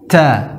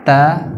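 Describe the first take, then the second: First: The t is released with a heavy puff of breath. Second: The t is released with a slight puff of breath. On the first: The speaker calls it wrong. "terlalu berlebihan e, memberikan sifat hams" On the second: The speaker calls it right. "nah itu ada sedikit angin ya"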